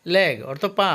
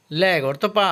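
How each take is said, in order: Both takes have the same delivery.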